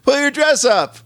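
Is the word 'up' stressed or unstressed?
unstressed. The word up is not stressed.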